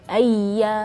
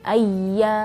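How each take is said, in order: No difference in how they are said.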